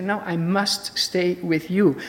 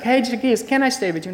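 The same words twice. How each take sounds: First: Slow, firm, stress on must; "I must stay", not asking; firm insistence. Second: Casual asking. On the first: Shown as a demonstration. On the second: Pretend. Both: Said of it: "It's not just like".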